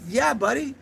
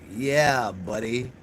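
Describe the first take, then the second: First: It sounds enthusiastic and friendly. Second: It sounds sarcastic and condescending.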